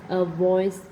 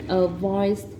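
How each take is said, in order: The two takes are said the same way.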